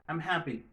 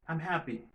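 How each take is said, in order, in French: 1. 'I am' est raccourci en une seule syllabe. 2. 'I am' est raccourci en une seule syllabe.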